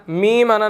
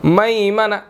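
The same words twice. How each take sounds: First: मीमाना with a long ee on the meem; the mistaken मीमाना with ee; wrong kasra. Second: मैमना with मै, not मी; fatha on meem. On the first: (ग़लत उच्चारण मीमाना) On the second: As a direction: say मैमना opening the first vowel. (मैमना, ज़बर के साथ) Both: Shown as a demonstration. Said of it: "मीमाना नहीं पढ़ना".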